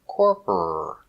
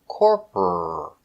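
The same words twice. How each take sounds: The two takes are said the same way.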